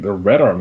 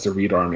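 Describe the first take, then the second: First: The first word has a short 'e' vowel. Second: The first word has a long 'ee' vowel. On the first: It is a pun that works as a good name. The speaker calls it right. "And then you guys started saying the Red Army" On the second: It was read as a name that seemed dumb. The speaker calls it wrong. "When I first read it, I read it as the Reed Army"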